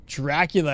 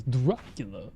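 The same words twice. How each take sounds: First: Said in the usual way. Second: Lightly put-on Dracula accent, lower. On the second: Shown as a demonstration. Streamer naming the accent he attempts, mock Dracula accent. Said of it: "Dracula ass-, uh, accent".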